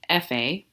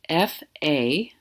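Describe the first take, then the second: First: The two sounds are joined smoothly together. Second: The two sounds are said separately.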